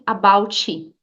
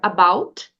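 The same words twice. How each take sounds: First: It ends in T followed by an added i sound. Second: It ends in a soft, subtle T sound. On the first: The speaker calls it wrong. "inserir o som da letra I" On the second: The speaker calls it right. "com um T sutil"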